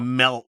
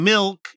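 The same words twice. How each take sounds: First: It is said with the local Utah vowel. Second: It is said with the standard vowel. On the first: The speaker calls it wrong. "You're saying so, milk" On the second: The speaker calls it right. "You're not saying milk"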